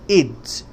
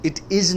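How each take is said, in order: First: The words are joined into one short word. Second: Two separate full words are said. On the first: The speaker calls it right. "it's okay" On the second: The speaker calls it wrong. "It is नहीं"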